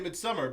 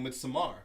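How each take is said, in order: First: It is pronounced the plain English way. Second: It is pronounced imitating a Swedish accent. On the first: "Normal people would say midsummer" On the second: "when you listen to the Swedish people say it, they're saying midsommar"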